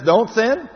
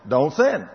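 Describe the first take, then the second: First: "sin" barked high and loud, rising; God's command shouted; loud commanding quote. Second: Said in the usual way. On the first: Acted. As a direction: thunder the commandment.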